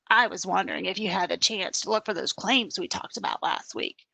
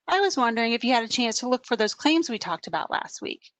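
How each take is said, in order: First: It is said in a harsh, demanding tone. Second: It is said in a friendly, polite tone. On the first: The reader hears it as a demand. "you might read it like" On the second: The writer means it as a polite request. "the tone that I'm trying to convey is"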